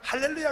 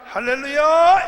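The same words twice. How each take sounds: First: It is said in a dry, lifeless way. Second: It is said with forceful, powerful energy.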